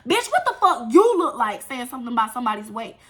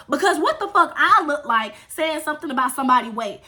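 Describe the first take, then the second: First: "you" punched hard, turning the question round; stress on YOU. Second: "I" pushed as the point of the question; stress on I. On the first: Girl turning on the one who really said it, stressing "you". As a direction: hit "you" as an accusation. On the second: Girl denying she insulted his weight, stressing "I". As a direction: lean on "I", indignant at being blamed. Contrasts herself with the other girl. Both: Retold or imitated.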